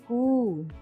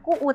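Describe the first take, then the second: First: The vowel is held long. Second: The vowel is short. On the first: The speaker calls it right. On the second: The speaker calls it wrong.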